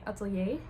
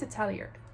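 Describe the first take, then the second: First: It is pronounced the French or Dutch way. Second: It is pronounced the English way. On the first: "in Dutch and like I guess French we would say atelier" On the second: "It's how the English pronounce it"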